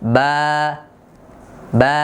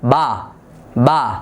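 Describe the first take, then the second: First: The vowel is a plain, thin a sound. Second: The vowel is over-opened and sounds heavy. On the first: The speaker calls it right. "তাহলে উচ্চারণটা কেমন হবে?" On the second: The speaker calls it wrong. "এতটা মুখ খুলে ফেলে যে জবরটা তখন পুর হয়ে যায়"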